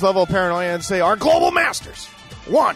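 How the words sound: It is said in a put-on impersonating voice. The speaker calls it right.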